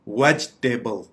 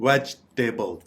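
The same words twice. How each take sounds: Both takes have the same delivery.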